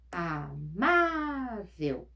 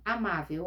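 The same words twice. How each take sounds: First: "Amável" drawn out very slowly, "má" stretched; syllable out "Amável" slowly, leaning on "má"; stress on the last syllables. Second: Said in the usual way. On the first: Shown as a demonstration. Teacher to pupils, stretching "Amável" to show the stress. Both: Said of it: "Penúltima sílaba mais forte".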